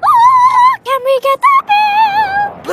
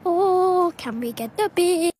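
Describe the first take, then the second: First: It is said loudly. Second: It is said quietly.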